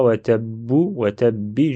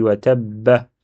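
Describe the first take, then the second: First: "wa tabbu, wa tabbi" ending in u, then i; "tabbu" and "tabbi" as counter-examples, endings u and i; wrong final vowel. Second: "wa tabba" ending on a short a; "wa tabba" with a as last vowel; final fatha. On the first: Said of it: "Je dis pas". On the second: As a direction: finish "wa tabba" with an open a. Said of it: "Il y a fatha". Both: Shown as a demonstration.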